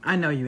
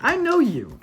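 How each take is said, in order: First: Said in the usual way. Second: Know pitched sharply high and louder; emphatic I know you. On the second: Real, not acted. Warning his girlfriend she always mocks ghosts, emphatic. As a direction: lean hard on "know" in "I know you".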